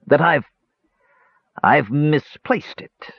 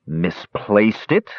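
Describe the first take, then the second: First: Halting, drawn-out confession, higher; hesitate, repeat, then admit it slowly; stammering. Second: Slow, incredulous question; amazed. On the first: Dwarf confesses the loss to the brothers, stammering. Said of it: "stammered Dugan". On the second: Sturm echoes the dwarf's confession, amazed. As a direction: echo it in drawn-out disbelief. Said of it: "Sturm said in amazement". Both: A narrator's reading.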